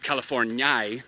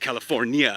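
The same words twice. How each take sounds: First: The ending is read with the Dutch 'ie' vowel. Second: The ending keeps the i and a vowels separate. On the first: The speaker calls it wrong. "if you put it in I E, that would make it California" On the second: The speaker calls it right. "E with an umlaut ... so that you don't pronounce it like I"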